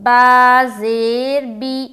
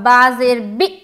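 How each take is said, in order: First: The final vowel is said smoothly and calmly. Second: The final vowel is jerked out abruptly. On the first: The speaker calls it right. "जबकि झटका नहीं देना है।" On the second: The speaker calls it wrong. "ऐसा करना गलत है। ... आप झटका दे रही हैं"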